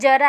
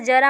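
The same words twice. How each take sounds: First: It starts with a 'j' sound. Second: It starts with a 'z' sound. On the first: It means old age. "जरा वाला ज है" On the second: It means a little. "ज पे यहाँ पे नुक्ता लग गया"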